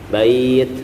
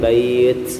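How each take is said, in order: First: The word ends with a clear released 't' sound. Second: The word ends with a 'ch'-like sound. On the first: The speaker calls it right. "bukan c tapi ta" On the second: The speaker calls it wrong.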